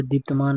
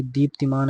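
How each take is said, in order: First: दीप्तमान with no i after the p-t; दीप्तमान ending in plain t-maan; wrong form. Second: दीप्तिमान with short i after the t; correct form. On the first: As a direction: say दीप्तमान, dropping the short i. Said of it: "नहीं". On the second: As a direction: sound the ti in दीप्तिमान. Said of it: "ऐसे शुद्ध रूप लिखा जाता है". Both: Shown as a demonstration.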